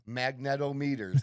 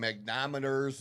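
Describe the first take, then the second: First: Every syllable is said, including 'net' after 'mag'. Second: The 'net' syllable after 'mag' is left out. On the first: The speaker calls it right. "sound the fucking word out. Magnetometers. That makes sense" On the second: The speaker calls it wrong. "I've heard people call them magnometers"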